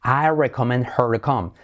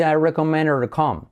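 First: "her" with an audible H; H kept. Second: "her" without its H, linked to "recommend"; dropped H. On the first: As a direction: say "recommend her" with the H sounded. ("her" con hache) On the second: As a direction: run "recommend her" together as "recommend-er". ("her" sin hache, enlazado) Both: Shown as a demonstration. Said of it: "Salto la H".

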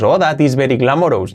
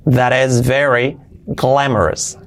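First: "glamorous" ending in a full "ous"; Spanish-style English, tapped r in "very", "glamorous" as spelled; wrong Spanish accent. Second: "glamorous" with a short weak "-es" ending; slow model, "glamorous" as GLA-mo-res; correct pronunciation. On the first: Teacher mocks up the learner's mistake: "glamorous" with Spanish vowels. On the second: Teacher corrects the learner's mistake: "glamorous" said slowly as GLA-mo-res. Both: Shown as a demonstration.

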